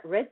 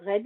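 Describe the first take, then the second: First: "red" redone with an English r and vowel; English accent. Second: A quick Frenchified "red" read off the code; French-style red. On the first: Teacher fixing his English accent on the word, English accent. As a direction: correct "red" into proper English pronunciation. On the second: Teacher reading the CSS value aloud, French-accented "red". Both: Shown as a demonstration. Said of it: "peaufine un peu mon accent anglais".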